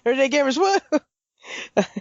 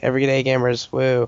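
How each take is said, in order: First: It is said with more energy and excitement. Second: It is said with little energy or excitement. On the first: The speaker calls it right. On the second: The speaker calls it wrong.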